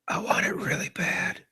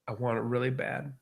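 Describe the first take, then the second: First: It is whispered into the microphone. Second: It is spoken in a normal voice.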